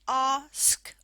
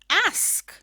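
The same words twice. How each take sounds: First: It is said in a King's English accent. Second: It is said in a different regional accent.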